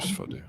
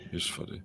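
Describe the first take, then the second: First: Said in the usual way. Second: Soft unvoiced whisper. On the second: Real, not acted. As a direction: whisper it under your breath. Repeats remark, whispered.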